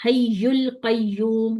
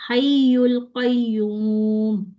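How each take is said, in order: First: हय्युल कय्यूम with friction on the ya; wrong reading. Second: हय्युल कय्यूम slow, voice raised on हय्युल; correct reading. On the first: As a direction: show the mistake, rub the ya. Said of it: "ये नहीं करना". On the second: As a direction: lift the pitch on हय्युल, clean ya. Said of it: "हय्युल पे मैंने आवाज को उठाया". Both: Shown as a demonstration.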